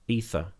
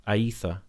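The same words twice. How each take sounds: First: Ether starting with "EE"; tentative pronunciation. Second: Aether starting with "ay-EE"; alternative pronunciation. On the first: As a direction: try Ether as "EE-thuh". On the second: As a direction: try Aether with an extra opening vowel, "ay-EE-thuh". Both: Real, not acted. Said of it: "I've completely butchered your nickname".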